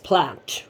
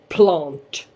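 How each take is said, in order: First: Plant is said with an English-style vowel. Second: Plant is said with a Swedish-style vowel. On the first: The speaker calls it right. "it's plant" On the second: The speaker calls it wrong. "I've been saying plant in every video"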